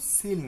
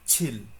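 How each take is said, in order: First: The word begins with a soft s sound. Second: The word begins with a strong ch sound. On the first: The speaker calls it wrong. "এটা কিন্তু সিল না" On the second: The speaker calls it right. "মানে এখানে একটা গোত্তা খাবে"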